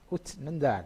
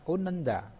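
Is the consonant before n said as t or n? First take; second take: t; n. First: The consonant before n is said as t. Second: The consonant before n is said as n.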